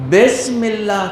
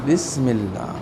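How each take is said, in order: First: بسم with "e", as "besmillah"; wrong Urdu-style vowel. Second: بسم with "i", as "bismillah"; correct Arabic vowel. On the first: Teacher asking pupils which they say, wrong vowel. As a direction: say بسم as "bes". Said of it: "کہتے ہو یا". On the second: Teacher modelling bismillah, correct vowel. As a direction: say بسم as "bis", holding the s. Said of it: "ای کی آواز آئے گی". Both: Shown as a demonstration.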